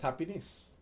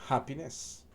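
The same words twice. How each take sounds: First: The word begins without any h sound. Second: The word begins with a clear h sound. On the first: "for our dialect is happiness" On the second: "For the standard English"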